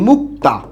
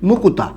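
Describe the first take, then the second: First: The k and t sounds join with no vowel. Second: An extra u vowel separates the k and t. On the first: "আমরা একটা শব্দ লিখি মুক্তা" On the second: "এই শব্দটাকে আবার এরকম উচ্চারণ করে অনেকে"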